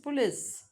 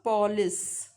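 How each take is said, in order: First: The first vowel is dropped, giving one syllable. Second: The first vowel is pronounced, giving two syllables. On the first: "O is deleted here. The unstressed schwa" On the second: "not police"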